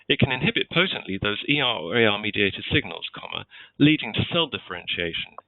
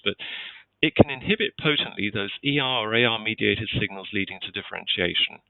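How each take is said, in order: First: There is a break just before leading. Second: It runs on without a pause before leading.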